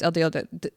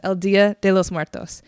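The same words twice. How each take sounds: First: Rushing and tripping over the name; talking too fast. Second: "El Dia de los Muertos" said with more care; slowed-down retake. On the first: Host racing through the holiday's name, too fast. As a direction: stumble on "de" from hurrying. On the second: Host correcting herself after rushing, measured and careful. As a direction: restart the name firmly and deliberately. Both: Real, not acted. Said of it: "I'm talking too fast".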